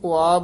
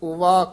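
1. ਵਿਚਕਾਰ ਕੋਈ 'v' ਦੀ ਆਵਾਜ਼ ਸੁਣਾਈ ਨਹੀਂ ਦਿੰਦੀ। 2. ਵਿਚਕਾਰ ਇੱਕ ਸਾਫ਼ 'v' ਦੀ ਆਵਾਜ਼ ਸੁਣਾਈ ਦਿੰਦੀ ਹੈ। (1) "ਕਈ ਪਾਠੀ ਸਿੰਘ ਉਆ ਬੋਲ ਜਾਂਦੇ ਹਨ" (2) "ਐੜਾ ਲਾ ਕੇ ਵਾਵਾ ਉਚਾਰਨ ਕਰਨਾ"

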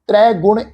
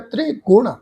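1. ਪਹਿਲਾ ਸ਼ਬਦ ਭਾਰੇ ਅਤੇ ਪੂਰੇ ਜ਼ੋਰ ਨਾਲ ਬੋਲਿਆ ਜਾਂਦਾ ਹੈ। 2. ਪਹਿਲਾ ਸ਼ਬਦ ਹਲਕੇ ਅਤੇ ਨਰਮ ਤਰੀਕੇ ਨਾਲ ਬੋਲਿਆ ਜਾਂਦਾ ਹੈ। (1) "ਇਸ ਢੰਗ ਨਾਲ ਪ੍ਰੋਨਾਉਂਸ ਨਹੀਂ ਕਰਨਾ" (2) "ਤ੍ਰੇ ਪੋਲਾ ਜਿਹਾ"

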